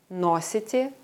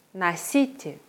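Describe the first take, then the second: First: Носите said NO-si-te, clear stressed O; Носите with the first syllable stressed, full O. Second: Носите said na-SI-te, the O reduced to A; носите with the second syllable stressed. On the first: Teacher contrasting verb forms, first-syllable stress. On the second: Teacher contrasting verb forms, second-syllable stress. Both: Shown as a demonstration. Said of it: "bei Verben verschiedene konjugierte Formen".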